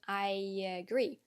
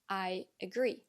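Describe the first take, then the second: First: A y sound joins the two words smoothly. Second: The two words are said separately without linking. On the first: The speaker calls it right. "add a y sound between the two words to connect them better" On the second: The speaker calls it wrong.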